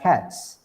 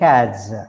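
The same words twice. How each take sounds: First: The word ends with a hissing s sound. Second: The word ends with a buzzing z sound. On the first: The speaker calls it right. "We pronounce it as sa sound" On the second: The speaker calls it wrong. "not as cats, not as ja sound"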